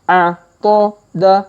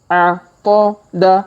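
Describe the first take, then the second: The two takes are said the same way.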